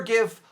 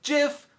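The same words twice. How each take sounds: First: "gif" set apart, starting as in gift; hard g. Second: "jif" set apart, starting as in jam; soft g. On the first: Ruling on the debate for viewers, "gif" with a hard g. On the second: Ruling on the debate for viewers, "jif" with a soft g. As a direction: say "jif" with a j sound. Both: Shown as a demonstration. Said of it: "jif or gif are both correct".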